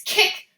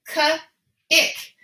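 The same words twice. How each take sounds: First: Said in the usual way. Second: "k, ick" in two separate pieces, pause between; segmented "k ... ick" for a young reader; broken into sounds. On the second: Shown as a demonstration. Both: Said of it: "So let's break it apart".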